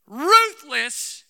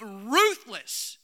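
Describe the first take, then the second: First: RUTHLESS punched out loud; emphasized RUTHLESS. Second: Said in the usual way. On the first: Shown as a demonstration. Preacher emphasizing a word to the congregation, RUTHLESS stressed loudly. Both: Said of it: "let me emphasize the word".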